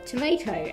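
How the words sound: The word is said in an American accent.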